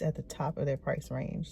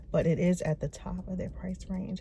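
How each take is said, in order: First: Hushed repeat, kept low; whispering. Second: Whispering. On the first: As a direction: say it again under your breath. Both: Real, not acted. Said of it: "I have to whisper".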